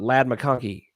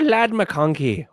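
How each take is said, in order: First: It is said in an ordinary accent. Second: It is said in a put-on Irish accent.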